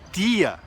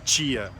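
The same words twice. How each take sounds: First: The t is a plain stop without palatalization. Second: The t is palatalized, sounding like ch. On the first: "as pessoas falam tia" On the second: "em vez de tia"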